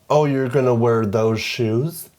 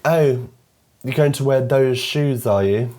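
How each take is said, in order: First: It is said in an American accent. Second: It is said in a British accent.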